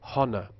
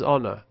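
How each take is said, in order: First: The word begins with an added h sound. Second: The word begins with no h sound. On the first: "non-standard speakers might pronounce honor" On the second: "which in R P is pronounced without H"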